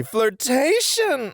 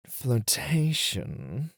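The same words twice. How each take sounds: First: High, slow, grand flirtation; triumphant announcement. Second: Slow, rising, suggestive flirtation; drawn-out tease. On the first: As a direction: proclaim it with flourish. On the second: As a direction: linger on the word teasingly. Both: Acted. Teacher revealing lesson.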